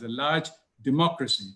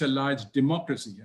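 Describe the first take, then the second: First: "large democracy" set apart, LARGE hit harder; emphasize "large", then land "democracy" on its own; emphatic stress. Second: Said in the usual way. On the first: Real, not acted. Speaker underlining India's scale to the audience, emphatic on "large democracy". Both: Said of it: "let me emphasize".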